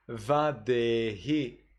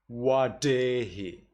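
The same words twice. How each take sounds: First: Slow vadehi with V and blunt d; vadehi, buzzing V; Sri Lankan reading. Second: Slow wadehi with W and sharp d; wadehi, round W, crisp d; Burmese reading. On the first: Teacher contrasting Sri Lankan vadehi with V. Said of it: "Sri Lanka". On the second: Teacher contrasting Burmese wadehi with W. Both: Shown as a demonstration.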